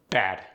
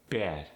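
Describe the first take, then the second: First: Said in the usual way. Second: "bad" with a tight, raised A; tense the vowel in "bad", toward "beh-ad"; Philadelphia-accented "bad", A raised; Philly short A. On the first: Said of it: "give you an example". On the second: Shown as a demonstration. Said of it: "They're tighter, more raised".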